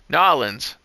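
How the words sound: The name is run together like one word. This is how people from Louisiana say it. "It's like one word"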